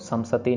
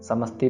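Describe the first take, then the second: First: A vowel separates the s and t. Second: The s and t are joined quickly together. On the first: The speaker calls it wrong. "इसको समसती नहीं करना" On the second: The speaker calls it right. "इसको जल्दी से पढ़ना है। समस्ती पढ़ना है"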